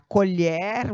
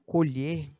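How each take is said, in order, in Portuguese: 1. A vogal O é aberta. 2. A vogal O é fechada. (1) "no substantivo o som do O é aberto" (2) "no verbo o som do O é fechado"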